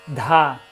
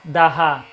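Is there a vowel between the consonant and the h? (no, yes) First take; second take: no; yes. First: The h breath comes out joined with the d. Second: A separate vowel and h syllable follow the d. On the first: "Aí vai acelerando dha, dha, até se juntar realmente o, o H ele sai junto com a consoante" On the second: "Você pode fazer daha, usa o ha para ajudar"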